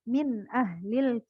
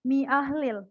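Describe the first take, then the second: First: The n sound of the first word is clearly heard. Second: The n sound of the first word is dropped. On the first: The speaker calls it right. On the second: The speaker calls it wrong.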